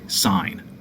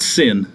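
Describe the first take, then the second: First: The vowel is long, rhyming with 'line'. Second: The vowel is short, rhyming with 'pin'. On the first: The speaker calls it right. "Say sine" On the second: The speaker calls it wrong. "not sin. Don't say sin"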